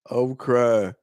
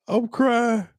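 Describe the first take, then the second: First: Said in the usual way. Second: "I'm crying" squeezed out high mid-laugh. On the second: Real, not acted. Host still in stitches over the joke, high laughing.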